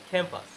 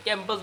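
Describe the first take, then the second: First: ক্যাম্পাস with a puff on K, "khampas"; aspirated K. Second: ক্যাম্পাস with a plain, unaspirated K. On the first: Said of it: "কি বলতে হবে?". (ক্যাম্পাস, খ দিয়ে খ্যাম্পাস) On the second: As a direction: say ক্যাম্পাস with no puff on K. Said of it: "ক্যাম্পাস বলা যাবে না". (ক্যাম্পাস, সাধারণ ক দিয়ে) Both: Shown as a demonstration.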